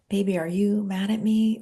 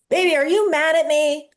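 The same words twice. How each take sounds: First: It is said quietly and softly. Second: It is said loudly and boldly.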